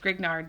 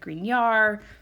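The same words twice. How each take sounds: First: The name is read out as English spelling. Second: The name is given a French-style pronunciation. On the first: The speaker calls it wrong. "it seems to me like it says Grignard" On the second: The speaker calls it right. "it's French and I'm sure it's like Grignard, something like that"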